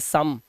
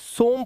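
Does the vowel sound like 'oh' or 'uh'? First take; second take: uh; oh. First: The vowel is a short 'uh' sound. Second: The vowel is a long 'oh' sound. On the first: The speaker calls it right. "But इसे पढ़ते हैं सम" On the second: The speaker calls it wrong. "सोम पढ़ना चाहिए"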